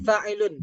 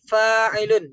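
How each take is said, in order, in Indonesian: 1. Vokal pertama diucapkan pendek. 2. Vokal pertama diucapkan panjang. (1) "jangan fa'ilun" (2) "tapi fa'ilun. Yang panjang tuh kita jelaskan panjangnya"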